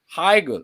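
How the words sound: The name is said with a German accent. "if you go to Germany, they're they're different"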